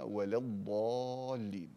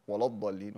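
First: ولا with a thin, light lam. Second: ولا with a thick, dark lam; heavy lam. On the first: Teacher gives the right reading, a light lam. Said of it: "وإنما". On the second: Teacher shows the wrong, heavy lam in ولا. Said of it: "لا تقل". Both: Shown as a demonstration.

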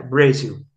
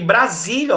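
First: "Brasil" em inglês, /bɾeziw/, tom mais baixo; Brazil in English. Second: "Brasília" em português, /bɾaziliɐ/; Portuguese Brasília. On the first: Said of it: "quando vocês virem Brasil escrito com Z". ("Brasil" pronunciado à inglesa) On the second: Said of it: "foi escrito com S, então é Brasília mesmo". ("Brasília" em português normal) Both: Shown as a demonstration.

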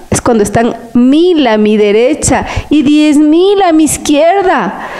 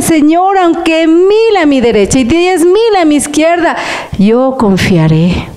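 First: Said in the usual way. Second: Higher, fervent prayer to the Lord; praying aloud. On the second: Shown as a demonstration. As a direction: pray it out with trust. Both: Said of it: "Pero si usted dice".

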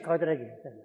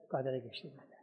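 First: Said in the usual way. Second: Much softer, lower repeat; hushed echo. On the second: A narrator's reading. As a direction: murmur it back as an afterthought. Soft echo of previous phrase. (çok alçak sesle, yankı gibi tekrar)

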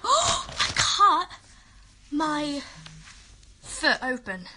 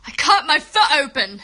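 First: Gasp, then halting word by word; halting shock. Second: Much louder, insistent outcry; loud exclamation. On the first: Girl announcing a cut foot to her viewers, halting. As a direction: break it up with long pauses. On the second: Girl repeating her injury news to everyone, loud outcry. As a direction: call it out in one loud run. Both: Real, not acted.

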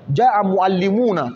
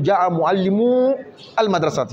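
First: Slow معلمون ending in uuna; nun kept. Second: معلمو held on long uu before المدرسة; nun dropped. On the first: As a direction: say mu'allimuuna with the na sounded. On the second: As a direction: say mu'allimuu with no na. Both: Shown as a demonstration. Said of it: "تحذف النون".

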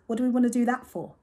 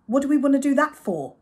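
First: A bit higher and louder, doubtful; skeptical question. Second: Much louder and higher, exasperated; exasperated repeat. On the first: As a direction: ask it doubting. Mum questioning Dad. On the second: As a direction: repeat it, losing patience. Mum repeating, more exasperated. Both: Acted.

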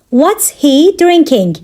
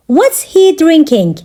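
First: Slower, pausing before "drinking"; measured language-lesson delivery; slow teaching repeat. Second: Said in the usual way. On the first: Shown as a demonstration. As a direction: take it steadily for learners. Teacher repeats question slowly for learners.

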